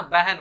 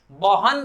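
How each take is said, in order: First: बहन as beh-en; spoken pronunciation. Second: बहन as ba-han, both vowels as written; spelling pronunciation. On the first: Teacher repeating everyday form, spoken pronunciation of बहन. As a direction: say बहन with e vowels. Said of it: "हम लोग बहन बोलते हैं ना". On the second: Teacher showing unused form, spelling pronunciation of बहन. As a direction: say बहन letter by letter, not beh-en. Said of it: "बहन भी नहीं बोलते हैं". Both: Shown as a demonstration.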